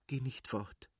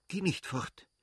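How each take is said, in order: First: Soft, hurried plea in labour; urgent plea. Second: Higher, pressing plea; cling to him with your voice; urgent plea. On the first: Kitty begs Levin not to leave, soft and urgent. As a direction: beg him quietly not to leave. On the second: Kitty in labour pleads with Levin, higher and urgent. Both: Acted. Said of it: "stieß sie rasch hervor".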